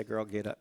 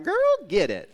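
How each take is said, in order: First: Said in the usual way. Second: Put-on girl get it shouted high and loud; loud cheer. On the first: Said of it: "that's why I do say". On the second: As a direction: cheer it out big and bright. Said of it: "I'm like".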